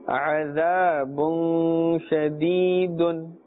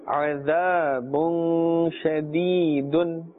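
The two takes are said the same way.

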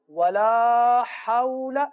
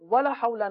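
First: The vowel in 'la' is drawn out long. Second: The vowel in 'la' is short. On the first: The speaker calls it right. "ولا کو کھینچنا ہے" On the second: The speaker calls it wrong. "ولا حول نہیں پڑھنا"

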